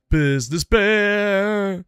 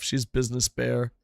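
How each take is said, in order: First: Slow, higher, drawn-out character voice; business bear voice. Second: Said in the usual way. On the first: Shown as a demonstration. To the audience about his wife, a slow silly voice. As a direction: stretch it out like a cartoon bear.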